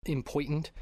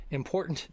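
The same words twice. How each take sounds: First: "important" said as "im-POY-tant"; odd pronunciation. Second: Said in the usual way. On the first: Real, not acted. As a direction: turn the "or" in "important" into "oy". Repeating a botched word.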